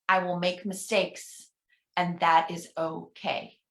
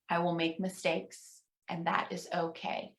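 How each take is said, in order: First: Slow affirmation reading. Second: Much softer repeat; almost whisper the echo; soft responsive echo. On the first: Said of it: "I'm gonna read each one". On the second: Minister softly echoing the final affirmation with the congregation. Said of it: "pause and encourage you at home". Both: Shown as a demonstration.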